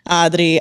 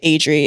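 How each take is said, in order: First: The name is said with a Spanish accent. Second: The name is said with an English accent. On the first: "if you have like the Spanish accent behind it, you could say it as like" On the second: "But like in English, you guys are like"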